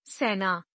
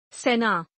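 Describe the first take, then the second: First: सेना with open ai, "sainaa"; mispronounced. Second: Said in the usual way. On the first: Shown as a demonstration. Teacher showing an e error, mispronounced with ai. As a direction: widen the e of सेना to ai. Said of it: "अशुद्ध". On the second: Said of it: "शुद्ध".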